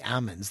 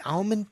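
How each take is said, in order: First: "almonds" said as ah-monds, no L; silent L. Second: Said in the usual way. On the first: Shown as a demonstration. Host quoting how California growers say it, silent-L pronunciation. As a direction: drop the L in "almonds". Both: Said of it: "They don't pronounce the L".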